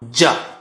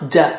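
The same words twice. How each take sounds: First: The consonant sounds heavy, from the tongue's middle. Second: The consonant sounds light, from the tongue's edge. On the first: The speaker calls it right. "It's a heavier sound" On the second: The speaker calls it wrong. "I'm touching the edge now"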